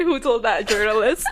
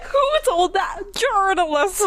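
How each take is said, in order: First: Said in the usual way. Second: Higher, laughing mock Southern accent; hammed-up Southern accent, pitched up. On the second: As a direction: put on a playful Southern accent through a laugh. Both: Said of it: "He should have been like".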